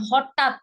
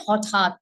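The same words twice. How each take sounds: First: হঠাৎ said with a plain t sound; wrong pronunciation. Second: হঠাৎ with a clearly aspirated ঠ; হঠাৎ, breathy aspirated th in the middle; correct pronunciation. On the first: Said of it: "যেমন হঠাৎ না". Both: Shown as a demonstration.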